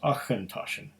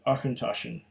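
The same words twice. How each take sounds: First: The first consonant is a throaty ch sound. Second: The first consonant is a hard k sound. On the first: "I put an emphasis on the rather than the k" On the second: "They're even telling you how to pronounce it"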